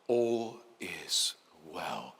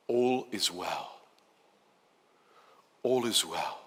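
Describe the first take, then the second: First: Very slow, soft, low echo of the phrase; soothing inner voice. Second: Slow, soft and low reassurance; calm the listener with each word; soothing demo. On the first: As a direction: murmur it as if heard inside the head. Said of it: "Hear it inside your mind". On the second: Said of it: "The tone of my voice". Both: Shown as a demonstration.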